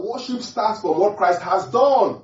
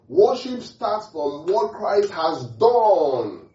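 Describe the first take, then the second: First: High, loud preaching cry; forceful proclamation. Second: High, loud and very slow; drawn-out proclamation. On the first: Preacher to believers on worship, forceful proclamation. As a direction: proclaim it loudly, stretching the last word. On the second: Preacher repeating the main point to believers, drawn-out proclamation. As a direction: stretch it into a long cry, holding DONE. I'll say that again. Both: Real, not acted.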